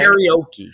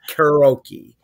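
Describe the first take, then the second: First: An 'ee' sound comes between the R and O. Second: No 'ee' sound comes between the R and O. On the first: The speaker calls it wrong. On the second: The speaker calls it right. "You cannot show me where there's an E between the R and the O. It's karaoke"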